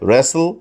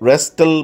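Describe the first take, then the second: First: The t is silent. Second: The t is sounded. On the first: The speaker calls it right. "বলতে হবে রেসেল" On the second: The speaker calls it wrong. "কিন্তু রেস্টেল বলা যাবে না"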